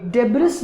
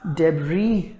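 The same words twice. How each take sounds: First: डेब्रिस with the final s sounded; wrong pronunciation. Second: डेब्री ending in "ee", s silent; correct pronunciation. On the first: Teacher contrasting the mistake, डेब्रिस with sounded s. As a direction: say डेब्रिस as "deb-riss". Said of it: "ना होके". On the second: Teacher giving the correct form, डेब्री with silent s. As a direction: say डेब्री lower, as "deb-ree". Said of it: "होता है". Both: Shown as a demonstration.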